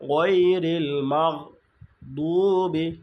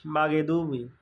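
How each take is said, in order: First: "গৈরিল মাগ দুবি" slow, stopping on "মাগ"; ghain held shut. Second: "মাগে দুবি" with an extra e after মাগ; common mispronunciation. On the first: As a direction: catch "মাগ" with no vowel, then stretch "দুবি". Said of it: "আটকায় ফেলতে হবে". ("মাগ"-এ আটকে, "দুবি" টেনে) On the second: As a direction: let "মাগে" run on without stopping the g. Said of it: "মাগে পড়ে ফেলি". ("মাগে দুবি" ভুল, বাড়তি এ-কার দিয়ে) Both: Shown as a demonstration.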